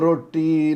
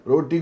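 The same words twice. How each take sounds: First: The t sound is held long and doubled. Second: The t sound is short and single.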